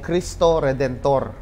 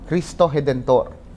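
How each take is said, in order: First: It is said with the speaker's plain pronunciation. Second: It is said with a local Brazilian pronunciation. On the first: "Ang tawag po dyan ay" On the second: "they pronounce it as"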